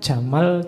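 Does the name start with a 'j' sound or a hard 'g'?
j. It starts with a 'j' sound.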